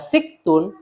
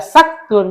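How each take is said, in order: First: The first vowel is i. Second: The first vowel is a. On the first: "Bisa dibaca tiga sinnya" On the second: "Bisa dibaca tiga sinnya"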